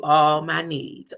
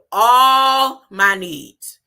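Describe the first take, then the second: First: Said in the usual way. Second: "all" held long and very loud; stress on ALL. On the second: Shown as a demonstration. Preacher has listeners say it along, drawn-out emphatic "all". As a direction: stretch and belt "all" before "my needs". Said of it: "say it with me".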